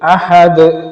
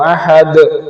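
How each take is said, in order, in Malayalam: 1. അവസാന വ്യഞ്ജനം കേൾക്കാവുന്ന ഒരു കുതിപ്പോടെ വിടുന്നു. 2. അവസാന വ്യഞ്ജനം കേൾക്കാവുന്ന ഒരു കുതിപ്പോടെ വിടുന്നു.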